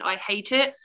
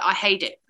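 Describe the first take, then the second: First: The consonant in 'hate' is a crisp T. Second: The consonant in 'hate' is a soft D. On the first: The speaker calls it wrong. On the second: The speaker calls it right.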